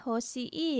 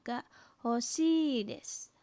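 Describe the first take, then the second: First: "hoshii" with the final i said as a separate syllable; broken long vowel. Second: "hoshii" with one long, held "ii"; long drawn-out vowel. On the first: Teacher shows students the wrong reading, "hoshii" broken into hoshi-i. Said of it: "Bukan dibaca hoshii ya". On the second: Teacher corrects the reading for students, "hoshii" held long and unbroken. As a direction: slowly stretch the end of "hoshii" before "desu". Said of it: "tapi panjang intonasinya". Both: Shown as a demonstration.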